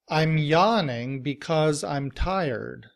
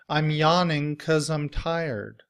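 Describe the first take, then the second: First: The word because is said with both syllables. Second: The word because is shortened to one syllable. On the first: "In citation form" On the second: "in reduced form, we don't say because. It's reduced to cause"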